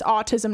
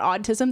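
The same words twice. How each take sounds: First: The first syllable sounds like 'aw'. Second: The first syllable sounds like 'odd'. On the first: This is the real name of the condition. The speaker calls it right. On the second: This suggests a condition of being odd. The speaker calls it wrong.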